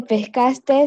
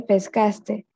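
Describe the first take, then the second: First: "pescaste" with an extra final S; pescaste with added S. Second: Said in the usual way. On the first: Shown as a demonstration. Student showing the class the error, "pescaste" with final S added. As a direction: end "pescaste" on a hiss, as pescastes. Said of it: "No se dice". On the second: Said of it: "se dice".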